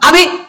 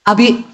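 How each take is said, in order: First: It is called at a very high pitch. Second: It is called at a somewhat raised pitch.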